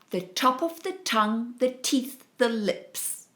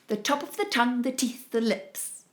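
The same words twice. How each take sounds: First: It is said a bit faster. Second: It is said faster still.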